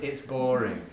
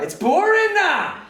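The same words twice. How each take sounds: First: Said in the usual way. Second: Very high, loud, stretched-out wail; pupil's outburst. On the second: Retold or imitated. Pupil blurting his boredom to teacher, mock wail. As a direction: imitate a bored boy's slow bellowed whine. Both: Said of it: "But it came out like".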